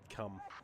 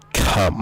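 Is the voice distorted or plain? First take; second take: plain; distorted. First: It is said in a plain voice. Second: It is said in a distorted voice.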